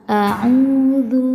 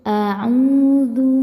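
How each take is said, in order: Both takes have the same delivery.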